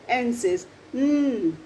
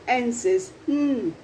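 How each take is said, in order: No difference in how they are said.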